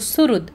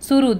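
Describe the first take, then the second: First: The word ends on a bare d sound. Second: The word ends with a full da syllable. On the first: The speaker calls it right. "द शेवटी त्याचा complete नसतो, तो अर्धा असतो" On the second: The speaker calls it wrong. "सुहृद असं म्हणायचं नाही"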